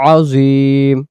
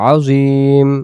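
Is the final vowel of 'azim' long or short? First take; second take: long; long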